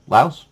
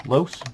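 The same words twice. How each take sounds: First: Laos said as "louse"; settled pronunciation. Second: Laos said as "lohs"; alternative pronunciation. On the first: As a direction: say Laos with an "ow" vowel, rhyming with house. Settles on pronunciation after spelling. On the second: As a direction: say Laos with an "oh" vowel, rhyming with gross. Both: Shown as a demonstration.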